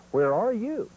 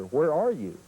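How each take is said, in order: First: High calling "Where are you?"; calling hen. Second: Said in the usual way. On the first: Shown as a demonstration. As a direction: call it out high like a hen turkey asking. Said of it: "Two perch says". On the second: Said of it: "that's asking the old gobbler".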